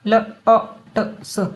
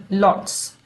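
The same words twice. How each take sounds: First: Lots split into l, o, t, s; each sound of lots said separately. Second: Said in the usual way. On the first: Shown as a demonstration. Teacher sounding out lots for learners, segmented. Word sounded out, then blended.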